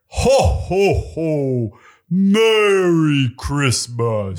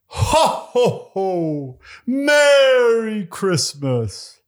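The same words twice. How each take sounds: First: It is said in a lower Santa voice. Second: It is said in a higher Santa voice.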